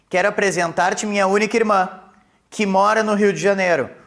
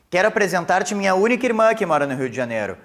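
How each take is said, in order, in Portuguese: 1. Há uma pausa depois da palavra irmã. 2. Não há pausa depois da palavra irmã. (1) "Com a vírgula fica explicativa" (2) "Se porventura nós retirássemos a vírgula"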